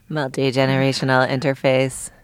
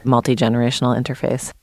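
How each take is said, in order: First: It is said in a put-on robot voice. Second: It is said in a natural speaking voice.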